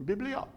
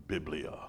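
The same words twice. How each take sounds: First: High, soft mock-French lilt; French accent. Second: Low, hushed attempt at a Roman accent. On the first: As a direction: lift it high and rising, as if French. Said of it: "Does that sound French?". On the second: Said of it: "say that with a Roman accent". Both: Shown as a demonstration.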